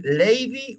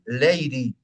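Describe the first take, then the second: First: "lady" with a full D, "lei-di"; "lady" with an unsoftened D; clear D. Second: "lady" with a flapped D, "lei-ri"; "lady" said the American way, "leiri"; rounded D. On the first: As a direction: sound a firm D in "lady". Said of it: "puedo decir lady". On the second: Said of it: "o puedo decir lady". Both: Shown as a demonstration.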